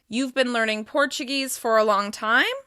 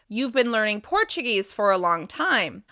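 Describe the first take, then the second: First: The pitch rises at the end of the sentence. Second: The pitch falls at the end of the sentence. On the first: "By using rising intonation at the end of the statement" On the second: "I'm using falling intonation at the end of the sentence"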